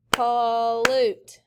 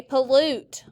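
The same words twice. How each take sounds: First: "pollute" with a long, full first syllable. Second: Said in the usual way. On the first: Shown as a demonstration. Teacher clapping with students, "pollute" stretched by syllable. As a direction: clap out "pollute" in two held beats. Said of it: "Clap it". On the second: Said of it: "everyone say pollute".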